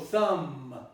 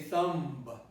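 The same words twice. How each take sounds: First: The word ends on an m sound. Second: The word ends with an audible b. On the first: The speaker calls it right. "the ba is eliminated ... you only pronounce up to the ma" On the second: The speaker calls it wrong. "You don't say thumb"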